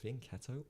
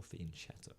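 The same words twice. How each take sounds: First: "Fianchetto" with a hard K, fee-an-KET-to; "Fianchetto" pronounced the K way; hard K pronunciation. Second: "Fianchetto" with a soft sh-like CH, fee-an-CHET-to; "Fianchetto" pronounced with CH, not K; soft CH pronunciation. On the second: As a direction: soften the "ch" in "Fianchetto" towards "sh". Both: Shown as a demonstration. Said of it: "is it Fianchetto or Fianchetto".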